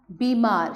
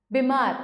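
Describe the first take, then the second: First: Said in the usual way. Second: बीमार with a short "bi", pitched up; बीमार said "bih-MAAR"; wrong short i. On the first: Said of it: "शुद्ध है". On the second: Shown as a demonstration. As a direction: clip the first vowel of बीमार. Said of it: "बीमार शुद्ध है".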